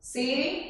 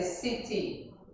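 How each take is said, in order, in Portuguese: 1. O t soa como um toque rápido. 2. O t é um som de t claro.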